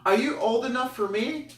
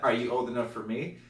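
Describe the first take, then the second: First: High, loud mock girl voice. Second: Lightly voiced sister, near usual voice; imitated sister. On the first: Party girl sizing him up, high imitation. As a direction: ask it in a put-on high girl voice. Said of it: "I hear these two female". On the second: Sister repeating the question, lightly imitated. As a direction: ask it understated, barely putting on a voice. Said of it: "And then her sister".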